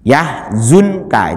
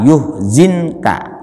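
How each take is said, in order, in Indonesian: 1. Vokal pertama adalah a, yang kedua u. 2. Vokal pertama adalah u, yang kedua i. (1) "Kalau ya-nya dibaca fathah maka zai-nya itu dibaca dom" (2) "Kalau ya-nya dibaca domah maka zai-nya itu dibaca kasroh"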